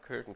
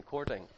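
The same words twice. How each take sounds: First: Courting said as "kertin", no r, flat short first vowel; wrong pronunciation. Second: Courting with a full "cor" and r, ending "-ting"; right pronunciation. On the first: Correcting his own word for the audience, courting said "kertin". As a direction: mispronounce courting as "kertin", quietly. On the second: Correcting his own word for the audience, courting said properly "cor-ting". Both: Shown as a demonstration. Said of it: "Sorry, courting. Not courting".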